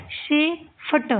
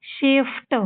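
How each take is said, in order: First: शेफट very slowly as shi, pause, fta; sounded out. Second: Said in the usual way. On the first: Shown as a demonstration. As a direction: break शेफट into two separate parts. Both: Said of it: "आपको इनको पढ़ना है".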